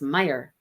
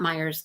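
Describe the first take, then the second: First: The name ends without an s sound. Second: The name ends with an s sound. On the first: The speaker calls it right. "it's Meyer" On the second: The speaker calls it wrong. "it is not Myers"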